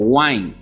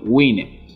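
First: The word is pronounced the English way. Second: The word is pronounced the Spanish way. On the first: "se conoce hoy en día como Wine" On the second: "como pudiésemos pronunciarlo en español"

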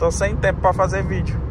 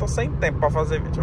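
First: It is spoken at a louder volume. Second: It is spoken at a quieter volume.

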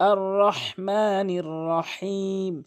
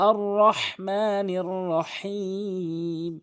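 Both takes have the same delivery.

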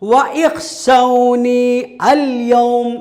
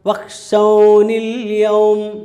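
First: The glottal stop is pronounced before 'al'. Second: The glottal stop is dropped and the words join. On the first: The speaker calls it wrong. "എന്ന് വായിക്കുന്നുണ്ടോ? ഇല്ല" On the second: The speaker calls it right. "ചേർത്ത് വായിക്കുമ്പോൾ ഉച്ചരിക്കുന്നില്ല"

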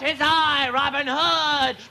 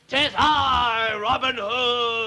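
First: It is said in a higher-pitched voice. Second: It is said in a lower-pitched voice.

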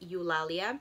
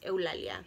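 First: The name is said with an English pronunciation. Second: The name is said with a Spanish pronunciation. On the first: "I believe that's how you pronounce it in English" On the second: "because it's Spanish"

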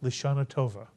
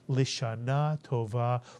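First: It is said in an Ashkenazic Hebrew accent. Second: It is said in a Sephardic Hebrew accent.

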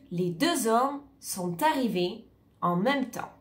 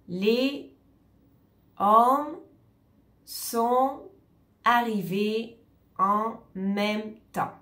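First: The words are linked together with liaisons. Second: Each word is said separately without linking. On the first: The speaker calls it right. "On va dire" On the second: The speaker calls it wrong. "On ne va pas séparer tous les mots"

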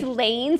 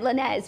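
First: The name is said in a plain English way. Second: The name is said in a French-like way. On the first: The speaker calls it right. "It's Lanes" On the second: The speaker calls it wrong. "and I said Lanez"

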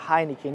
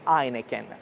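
First: The first sound is a breathy H. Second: The word starts directly with a vowel. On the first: This is how the name is said in Brazil. "a pronúncia da cerveja Heineken no Brasil" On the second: This is how the name is said in Italy. "aqui a gente diz Heineken"

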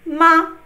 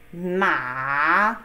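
First: The syllable is short, light and unstressed. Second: The pitch dips low and then rises. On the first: It marks a question. "question word" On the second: It means horse.

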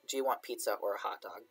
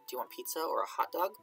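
First: The tune offers a choice of only one. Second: The tune leaves room for having both.

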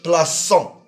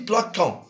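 First: The consonant after 'pla' is a soft s. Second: The consonant after 'pla' is a hard k. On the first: The speaker calls it right. "pour le prononcer « plaçant »" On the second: The speaker calls it wrong. "Si on ne met pas le CCD, on dit « plaquant »"

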